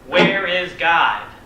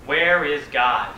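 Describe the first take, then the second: First: It is said more sternly and louder. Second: It is said sternly at a moderate volume.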